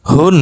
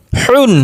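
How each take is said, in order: First: হুন with a light, unpressed হ. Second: Higher হুন with a tight, pressed হ; pressed throat H. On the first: Teacher drilling two H sounds, light হুন. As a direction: let হুন start on an easy open breath. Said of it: "আর একটা হালকা normal উচ্চারণ". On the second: Teacher drilling two H sounds, throat-pressed হুন. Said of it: "চেপে উচ্চারণ করতে হবে গলার মধ্যে". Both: Shown as a demonstration.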